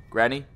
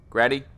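No difference in how they are said.

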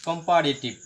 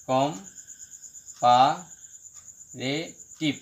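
First: Said in the usual way. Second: comparative very slow, with long gaps; broken into syllables. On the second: Shown as a demonstration. Teacher showing a polysyllable, comparative syllable by syllable. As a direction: split comparative into com, pa, re, tiv. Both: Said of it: "এটা হলো পলি syllable".

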